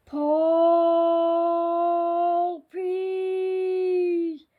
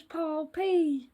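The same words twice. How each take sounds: First: Long, loud, drawn-out ghostly call; eerie wailing summons; scary voice. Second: Said in the usual way. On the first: A narrator's reading. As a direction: stretch each word out like a haunting spectre. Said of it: "said the scary voice".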